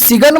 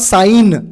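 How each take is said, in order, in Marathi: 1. 'g' उच्चारला जातो; तो 'sig-un' सारखा वाटतो. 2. 'g' मूक आहे; तो 'sine' सारखा वाटतो. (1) "जर तुम्ही सिगन म्हणसाल तर चुकलं" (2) "याला प्रोनाउन्स करतो आपण साईन"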